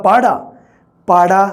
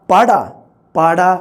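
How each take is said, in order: No difference in how they are said.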